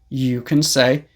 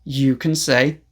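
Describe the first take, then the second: No difference in how they are said.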